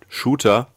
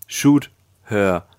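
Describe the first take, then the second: First: Said in the usual way. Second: "Shoot her" split into two words, a little louder; pun spelled out. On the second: Shown as a demonstration. Revealing the twist hidden in the name, pointed wordplay. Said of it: "Das ist der Twist am Ende".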